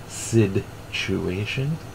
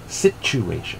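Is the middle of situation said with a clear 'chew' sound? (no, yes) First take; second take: no; yes. First: The middle is said without a clear 'chew' sound. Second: The middle is said with a clear 'chew' sound. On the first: The speaker calls it wrong. "too many people say situation. Stop it with the situation" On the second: The speaker calls it right. "It's sit. ... And then chew. Chew. Situation. Thank you"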